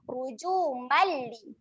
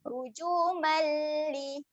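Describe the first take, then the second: First: The m merges straight into the l, short. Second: The m is held with a nasal hum. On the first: The speaker calls it right. "Kita gabungkan terus bunyi huruf mim kepada huruf lam" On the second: The speaker calls it wrong. "Bunyi yang salah kita dengungkan"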